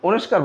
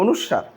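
First: The middle cluster is pronounced as 'sk'. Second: The middle cluster is pronounced as 'sw'. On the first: The speaker calls it wrong. "এটাকে আপনারা অনেকে অনুস্কার বলেন" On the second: The speaker calls it right. "এটা হবে অনুস্বার"

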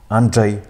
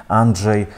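No difference in how they are said.

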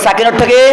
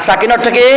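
Both takes have the same delivery.

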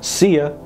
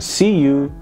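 First: The second word is reduced to 'ya'. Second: The second word is a full 'you'. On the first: "you رو یا میخونن" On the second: "اون you دیگه نمیگن"

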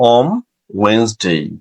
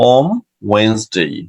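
No difference in how they are said.

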